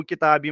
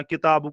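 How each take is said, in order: First: किताबी ending in an "ee" sound instead of u; wrong ending. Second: किताब said as "kitaabu", ending in a short u; correct Arabic ending. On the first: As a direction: show the mistake, closing किताबी on -ee. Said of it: "किताबी मत पढ़ना". (किताबी के अंत में "ई" की ग़लत आवाज़) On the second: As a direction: finish किताब on a clear -u sound. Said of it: "किताब को किताबी मत पढ़ना". (किताब के अंत में छोटा "उ") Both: Shown as a demonstration.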